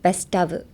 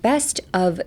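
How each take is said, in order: First: 'Best' and 'of' run together as one word. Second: 'Best' and 'of' are said as separate words. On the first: The speaker calls it right. "バスタブみたいな感じでつなげます" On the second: The speaker calls it wrong. "じゃなくて"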